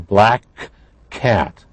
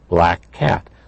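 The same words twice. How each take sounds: First: The two k sounds are said separately. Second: The two k sounds blend into one sound. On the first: The speaker calls it wrong. "We don't say" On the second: The speaker calls it right. "blended into one sound"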